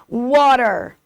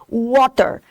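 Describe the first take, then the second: First: The middle T sounds almost like an R. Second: The middle T is clearly pronounced as T. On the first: "No inglês americano, esse T... tem um som quase de R" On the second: "no inglês britânico, o T é pronunciado"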